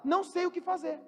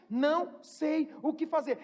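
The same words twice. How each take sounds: First: Said in the usual way. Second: Slow, sincere admission; mean every word, slowly. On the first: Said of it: "a gente pode falar". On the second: Shown as a demonstration. Preacher showing an honest confession, slow and sincere.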